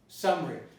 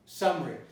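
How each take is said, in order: First: The middle vowel is dropped. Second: The middle vowel is dropped.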